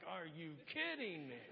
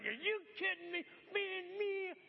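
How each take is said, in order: First: Lower, under-the-breath disbelief; low, weary mock exasperation; muttered disbelief. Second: Higher, louder disbelieving outburst; incredulous road-rage cry, pitched up and loud; exasperated outburst. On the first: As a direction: grumble it to yourself in the line. Annoyed in grocery line. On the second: Retold or imitated. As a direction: blow up at a bad driver in mock outrage. Frustrated driver in traffic.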